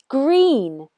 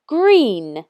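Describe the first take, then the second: First: Green blended from its sounds; teacher blends the letters into Green; blended word. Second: Green said clearly for spelling; teacher models Green for spelling; model word. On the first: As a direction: join the sounds back into Green. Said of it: "Say it with me". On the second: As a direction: say Green slowly so kids hear each sound. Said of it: "Can you help me spell that word?". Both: Shown as a demonstration.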